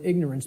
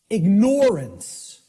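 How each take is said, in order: First: It is said the usual way, without 'ignore'. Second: It is said so 'ignore' is heard inside. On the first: The speaker calls it wrong. "the impact of the word is almost lost to us" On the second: The speaker calls it right. "people will hear the word ignore in it"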